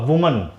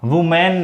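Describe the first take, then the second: First: The last syllable is a weak, reduced 'mun'. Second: The last syllable is a full, clear 'man'. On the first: The speaker calls it right. "इसका होगा वुमन" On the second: The speaker calls it wrong. "वुमैन नहीं होगा"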